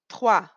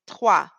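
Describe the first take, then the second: No difference in how they are said.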